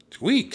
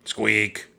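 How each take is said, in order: First: Very high, loud little squeak; piercingly high mousy peep; eager mouse squeak. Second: Half-hearted squeak, pitched up a little; modest, louder mousy peep; reluctant mouse squeak. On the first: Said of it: "said Annie". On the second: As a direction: squeak it grudgingly. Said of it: "Jack groaned". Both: A narrator's reading.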